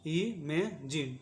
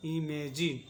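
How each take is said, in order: First: इमेजिन drawn out very slowly, syllable by syllable, i-me-jin; slow model word. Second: Said in the usual way. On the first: Shown as a demonstration. Teacher modelling the word for students, very slow. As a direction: stretch इमेजिन slowly so each sound is heard. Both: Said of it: "इसको पढ़ेंगे इमेजिन".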